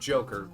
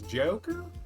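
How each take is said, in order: First: It is said in a plain standard accent. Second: It is said with a drawn-out Kentucky country accent. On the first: "not Joker" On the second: "it was a wedding in Kentucky, and so the pronunciation was Joker"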